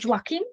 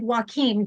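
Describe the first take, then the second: First: The name starts with a J sound. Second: The name starts without a J sound. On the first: The speaker calls it right. "you have to pronounce the J" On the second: The speaker calls it wrong. "I was said Joachim"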